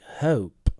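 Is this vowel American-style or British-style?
British. The vowel is slower and longer. "British people are more like"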